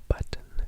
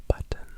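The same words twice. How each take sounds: No difference in how they are said.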